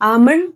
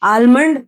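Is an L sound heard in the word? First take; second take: no; yes. First: No L sound is pronounced before the M. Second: An L sound is pronounced before the M. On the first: The speaker calls it right. "So it goes like this" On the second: The speaker calls it wrong. "ಆಲ್ಮಂಡ್ಸ್ ಅಲ್ಲೂ ನಾವು ಎಲ್ ನ use ಮಾಡ್ತೀವಿ"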